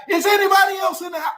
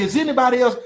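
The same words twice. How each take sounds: First: Cop yelling. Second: Said in the usual way. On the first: Retold or imitated. Officer yelling the question while hauling him out. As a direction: shout it for no reason. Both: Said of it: "Why is you yelling though?".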